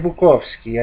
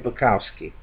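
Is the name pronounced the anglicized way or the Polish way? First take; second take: Polish; anglicized. First: The name is pronounced the Polish way. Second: The name is pronounced the anglicized way. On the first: The speaker calls it right. "I say Bukowski" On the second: The speaker calls it wrong. "I don't say Bukowski"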